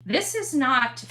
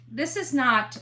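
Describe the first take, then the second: No difference in how they are said.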